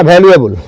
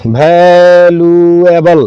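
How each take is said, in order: First: Said in the usual way. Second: वैल्यूएबल stretched as va-l, yoo, e-bal; वैल्यूएबल low and evenly drawn out in parts; sounded out. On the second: Shown as a demonstration. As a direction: say वैल्यूएबल very slowly, every syllable held. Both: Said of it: "नहीं ना कहेंगे".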